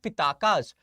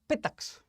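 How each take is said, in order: First: A vowel sound follows the k. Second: No vowel sound follows the k. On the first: The speaker calls it wrong. "most of the people call it Pitakas" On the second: The speaker calls it right. "In actual pronunciation term, they are Pitaks"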